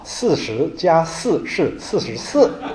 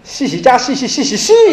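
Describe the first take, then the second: First: The sh sounds are clear, in standard Mandarin. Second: Every syllable comes out like 'xi', Cantonese-accented. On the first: "你教他讲一句话啊" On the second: "那么他一定跟你讲"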